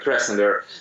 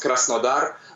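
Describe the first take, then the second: First: The name is said with an English pronunciation. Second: The name is said with a Russian pronunciation. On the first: "in English it's better to pronounce like Krasnodar" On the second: "in Russian it sounds Krasnodar"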